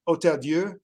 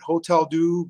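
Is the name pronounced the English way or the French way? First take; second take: French; English. First: The name is said with a French pronunciation. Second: The name is said with an English-style pronunciation. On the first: This is how French speakers say it. "For our Francophone audience" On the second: This is how most people say it. "Most people will pronounce it"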